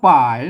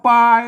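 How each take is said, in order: First: The word is read in Lanna style. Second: The word is read in standard Thai style. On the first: "อันนี้อ่านแบบแบบล้านนาเนี่ย" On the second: "อันนี้แบบไทยนะอ่านว่าปาย"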